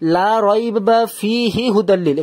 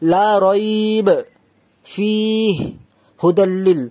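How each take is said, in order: First: It runs on with no pause anywhere. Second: It pauses after rayb and after fih. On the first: "এখানেও থামছি না, এখানেও থামছি না, তাহলে এটা ভুল" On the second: "আমি এখানেও থামলাম, এখানেও থামলাম, তবুও ভুল হবে"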